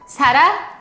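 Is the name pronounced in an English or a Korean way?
Korean. The name is said with Korean sounds. "사라 with 시옷"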